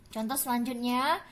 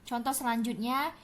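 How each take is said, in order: Both takes have the same delivery.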